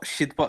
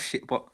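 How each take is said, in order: First: The first syllable ends with a d sound. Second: The first syllable ends with a t sound. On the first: The speaker calls it right. "the D, yeah, D at the end of the word" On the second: The speaker calls it wrong. "Not not the C at the end"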